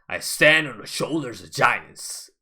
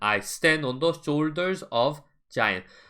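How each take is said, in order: First: Native-style: fast, deep, forceful voice with reduced 'of'. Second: Korean-style: lighter voice with even, unreduced words. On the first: The speaker calls it right. "너무나 빠르고 너무나 발성이 들어가기 때문에 이렇게 하죠" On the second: The speaker calls it wrong. "우리가 하는"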